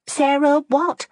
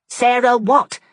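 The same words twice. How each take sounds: First: Slow, higher, drawn-out impatient question; impatient curiosity. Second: Louder, higher, sharp repeat; sharp demand. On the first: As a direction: press her, curious and impatient. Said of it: "with impatient curiosity". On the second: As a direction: snap the question to force an answer. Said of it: "asked Fanny sharply". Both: A narrator's reading.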